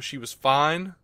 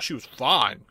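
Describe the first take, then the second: First: The tone is plain and matter-of-fact. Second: The tone is suggestive and leering. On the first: She was adequate in the role. The speaker calls it right. "and I say fine, in Supergirl, and I don't say that in a creepy way" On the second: She was attractive. The speaker calls it wrong. "like, oh, she was fine"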